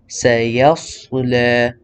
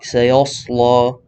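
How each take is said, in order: First: Only the sad is heavy; ya and lam are light. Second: The ya and lam are also made heavy. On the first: The speaker calls it right. "the yeah behind it is light and also the lam" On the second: The speaker calls it wrong. "not سيصلى"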